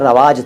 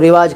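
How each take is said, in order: First: The first syllable has the vowel 'a'. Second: The first syllable has the vowel 'i'. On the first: This is the original Arabic form. "असल में वो रवाज था अरबी में" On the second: This is the form common in Hindi. "लेकिन वो रिवाज के रूप में चलता है"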